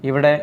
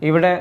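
No difference in how they are said.

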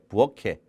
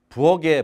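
First: The middle consonant is an aspirated k. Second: The middle consonant is a plain, soft g. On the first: The speaker calls it right. "부어케 부어케" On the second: The speaker calls it wrong. "부어게라고 하지 않고"

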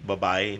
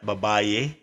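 First: The word ends without an extra final vowel. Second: The word ends with an extra final 'e' vowel. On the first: The speaker calls it right. "babay should be babay" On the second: The speaker calls it wrong. "not babaye"

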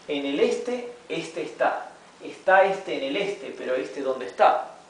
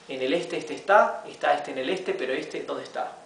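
First: The sentence is read at a moderate pace. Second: The sentence is read at a fast pace. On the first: "gradually we'll be reading faster" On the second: "y luego más rápido"

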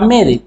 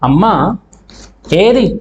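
First: The two words are merged into one. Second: The two words are said separately.

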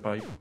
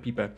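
First: The word gets its normal English pronunciation. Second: The word gets a jokey, non-English pronunciation. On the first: This is the real pronunciation. The speaker calls it right. "tak naprawdę wiem, że to się wymawia pipe" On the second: It sounds funnier this way. The speaker calls it wrong. "śmieszniej brzmi, jak się wymawia pipę"

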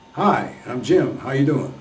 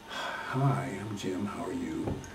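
First: It is said loudly and strongly. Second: It is said quietly and weakly.

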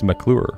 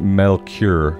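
First: The L sound comes after the K sound. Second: The L sound comes before the K sound. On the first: The speaker calls it right. "But it's McClure" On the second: The speaker calls it wrong. "it always puts the L before the C, and it's Melcure"

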